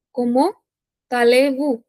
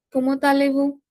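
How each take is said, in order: First: "Comment", rising, pause, then "allez-vous"; two-part teaching breakdown of "Comment allez-vous"; word by word. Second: Said in the usual way. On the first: Shown as a demonstration. Teacher dictates phrase in pieces.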